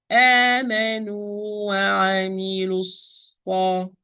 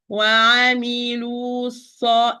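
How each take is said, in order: First: آمنوا وعملوا الصا recited smoothly, the mad dropped before the sad; correct recitation. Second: وعملوا الصا said the wrong way, the mad kept before the sad; wrong reading. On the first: Teacher recites the correct joining for her student. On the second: Teacher shows a student what not to say. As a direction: show the wrong, heavy joining. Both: Shown as a demonstration. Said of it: "I didn't say".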